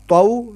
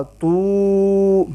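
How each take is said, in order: First: تو said gently as a short glide; soft short taw. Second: تو held as toooo; long too. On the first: Teacher contrasts the soft leen sound. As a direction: read تو softly. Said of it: "یہ لین". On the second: Teacher contrasts the long madd vowel. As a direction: stretch تو. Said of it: "یہ تو پیش وا". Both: Shown as a demonstration.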